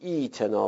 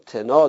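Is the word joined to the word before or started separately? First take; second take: separate; joined. First: It starts fresh after a stop, with 'ee'. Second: It is joined to the previous word without a vowel. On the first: "وقف کنیم، بعد باید بگیم ای تنا" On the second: "تخفیف همزه رخ نمیده، یعنی یا صالح تنا درسته"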